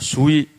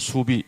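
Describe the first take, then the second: First: The second syllable starts with a w sound. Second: The second syllable starts with a b sound. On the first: "수위 쉽다 할 때 수위" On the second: "경상도서는 수비 이렇게 얘기합니다"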